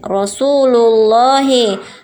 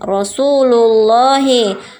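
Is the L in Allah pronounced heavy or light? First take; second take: heavy; heavy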